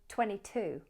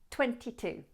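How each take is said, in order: First: The second T in twenty is left out. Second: Both T sounds in twenty are clearly pronounced. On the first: "sometimes you'll hear native speakers drop the second T in twenty" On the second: "Keep both T's in twenty-two"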